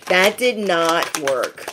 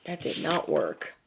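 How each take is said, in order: First: Slow, deliberate verdict; emphatic. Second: Much softer, understated verdict; quiet aside. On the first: Telling besties the prying failed, slow and emphatic. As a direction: spell it out slowly, weight on "did not". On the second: Telling besties the prying failed, quiet aside. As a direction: drop it right down, almost to yourself. Repeats verdict again, dropping away. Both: Real, not acted.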